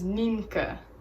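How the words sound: The name is said with Dutch sounds. "The Dutch pronunciation"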